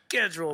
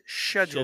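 First: The word begins with a 'sk' sound. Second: The word begins with a 'sh' sound. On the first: The speaker calls it right. "It's a schedule" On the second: The speaker calls it wrong. "People who pronounce it schedule"

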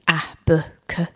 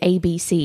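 First: Each letter is said as its short sound. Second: Each letter is said by its alphabet name. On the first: The speaker calls it right. "teaching the sound rather than the letter" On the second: The speaker calls it wrong. "so you don't sort of say A, B, C"

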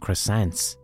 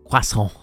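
First: It is said with an anglicized English pronunciation. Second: It is said with a French-style pronunciation. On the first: The speaker calls it right. "Which I call them croissants" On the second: The speaker calls it wrong. "I know it's the French pronunciation"

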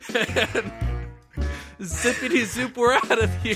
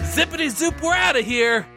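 First: It is said casually, without force. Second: It is said forcefully, from the gut.

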